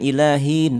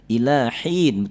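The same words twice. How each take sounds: First: The h sound is weak and half-formed. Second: The h sound is clear and fully breathy. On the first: The speaker calls it wrong. "tanggung dia" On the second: The speaker calls it right. "betul-betul dia ha ya"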